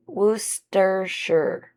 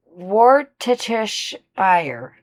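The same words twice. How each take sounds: First: "Worcestershire" said slowly as WUSS-ter-sher, the middle dropped; corrected Worcestershire. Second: "Worcestershire" dragged out slowly as wor-tuh-tih-shire, every syllable spelt out; botched Worcestershire. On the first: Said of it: "a trick to saying it". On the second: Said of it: "No, I'm already fucking it up". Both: Shown as a demonstration.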